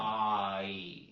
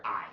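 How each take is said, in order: First: "I" dragged out very long; long, stretched "I", not blended; drawn-out Southern vowel. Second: Said in the usual way. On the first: Shown as a demonstration. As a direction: drag out "I" the Southern way. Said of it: "We'll drag it out". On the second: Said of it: "rather than blending them together".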